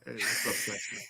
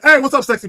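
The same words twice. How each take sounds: First: It is said in a low, seductive voice. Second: It is said in a plain, ordinary voice.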